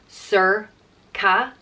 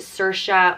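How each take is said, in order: First: The middle consonant is a k sound. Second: The middle consonant is an sh sound. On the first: This is the traditional form of the name. "The traditional Old Irish way is with a k sound" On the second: This is the more modern form of the name. "but that would be more modern"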